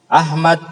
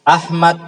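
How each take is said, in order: No difference in how they are said.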